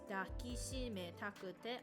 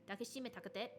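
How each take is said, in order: First: It is said at a moderate, natural speed. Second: It is said very quickly, run together. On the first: "that's pretty much the pace that they say it at" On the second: "if you want to say really fast"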